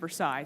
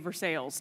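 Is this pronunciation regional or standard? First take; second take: standard; regional. First: It is said the usual, non-local way. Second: It is said the local Kentucky way. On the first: "instead of Versailles" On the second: "we also say Versailles"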